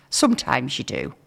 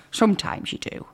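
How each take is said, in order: First: Said in the usual way. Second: Whispered "Sometimes you do" with no voice. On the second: Shown as a demonstration. Host whispers "Sometimes you do" as a confiding aside. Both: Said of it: "repeated whispered".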